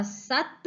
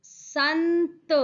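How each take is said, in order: First: Said in the usual way. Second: संत slow and higher, with a long n; nasal anusvara. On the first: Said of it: "जिन पर नहीं लगा है". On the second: Shown as a demonstration. Teacher adds the anusvara to the word, संत drawn out. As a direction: hold the n in संत, then release त. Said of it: "स पर अनुस्वार लगाया".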